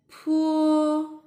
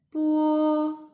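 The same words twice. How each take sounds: First: "pu" with a puff of air after the p; high, level "pu" with an airy p; aspirated p. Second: "pu" with no puff, close to b; high, level "pu" with an unaired p; unaspirated p. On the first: Teacher repeating the contrast, aspirated "pu". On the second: Teacher repeating the contrast, unaspirated "pu". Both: Shown as a demonstration. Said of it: "they are the unaspirated sound of these consonants".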